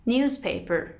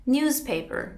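No difference in how they are said.

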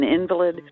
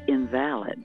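First: The stress is on the first syllable. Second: The stress is on the second syllable. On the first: "I am an invalid" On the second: Not valid or useless. "if you put the accent on the other, on the middle syllable"

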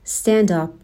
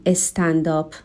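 First: The opening cluster is said tightly together. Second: The opening cluster is broken up by a vowel. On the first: The speaker calls it right. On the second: The speaker calls it wrong.

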